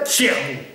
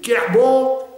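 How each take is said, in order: First: The word begins with a palatalized ch sound. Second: The word begins with a hard k sound. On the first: "Et on arrivait à Tchernou. C'est une palatalisation" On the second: "on commençait par crier « Kerbon"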